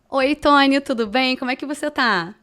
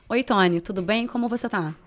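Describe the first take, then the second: First: It sounds flirtatious, in a childlike forced voice. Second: It sounds formal, in a plain, serious tone.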